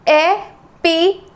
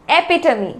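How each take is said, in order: First: Epitome very slowly as e, pi, to, mi; syllable by syllable. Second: Said in the usual way. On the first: Shown as a demonstration. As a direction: pause after each syllable of Epitome. Teacher breaks word into syllables.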